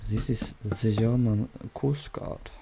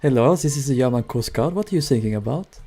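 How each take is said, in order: First: Put-on slow, softer thick German accent, z for th. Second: Put-on half-done German accent coast guard; light German accent. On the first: Coast guard answering the distress call, thick German accent. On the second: German coast guard answering the sinking ship, light German accent. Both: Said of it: "I should have put on a German accent".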